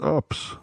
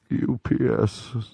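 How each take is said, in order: First: The letters are run together very fast. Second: Each letter is spoken separately at normal speed.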